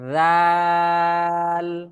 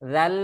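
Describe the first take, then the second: First: The vowel is drawn out long. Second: The vowel is cut short. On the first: The speaker calls it right. "টান দিয়ে তারপরে লামকে যে ধরতে হবে" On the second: The speaker calls it wrong. "জাল বলে ভুল হয়ে যাবে"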